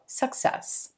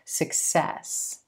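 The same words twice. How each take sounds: First: The stress is on the first syllable. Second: The stress is on the second syllable. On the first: The speaker calls it wrong. "a lot of English learners put the stress on the first syllable in this word, so it comes out" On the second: The speaker calls it right. "You want to shift that to the second syllable and stretch that eh as in red sound"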